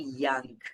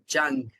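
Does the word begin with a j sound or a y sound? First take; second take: y sound; j sound. First: The word begins with a y sound. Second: The word begins with a j sound. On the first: The speaker calls it right. "They don't say young" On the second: The speaker calls it wrong. "the y doesn't exist"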